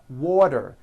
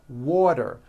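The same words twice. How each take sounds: Both takes have the same delivery.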